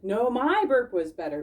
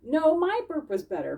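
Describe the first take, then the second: First: A hint of a second boastful critter, louder; Bismarck's voice. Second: Lightly voiced boastful little animal, higher; a playful brag in a raised character voice; Bink's voice. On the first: Bismarck insisting to Bink, light character voice. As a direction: answer the brag in a different character voice. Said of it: "Bismarck said". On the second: Bink bragging to Bismarck, light character voice. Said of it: "Bink said".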